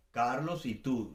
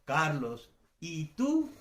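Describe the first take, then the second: First: "Carlos y tú" slowly joined, falling; conjunction intonation. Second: Carlos, pause, "y tú" rising sharply; exaggerated question intonation. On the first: Teacher shows the conjunction, "Carlos y tú" as one falling phrase. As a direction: link the names evenly and drop on "tú". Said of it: "con la conjunción Carlos y tú". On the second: Teacher exaggerates for students, "Carlos, ¿y tú?" with rising tone. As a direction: split off "y tú" and lift it as a question. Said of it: "exagero un poco". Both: Shown as a demonstration.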